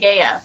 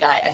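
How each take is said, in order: First: It is said with a Greek pronunciation. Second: It is said with an English pronunciation. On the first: This is how it is said in Greece. "in Greece they say Gaia" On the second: This is how it is said locally. "I say Gaia here"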